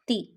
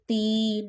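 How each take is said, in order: First: The vowel is kept short. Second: The vowel is stretched long. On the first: The speaker calls it right. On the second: The speaker calls it wrong.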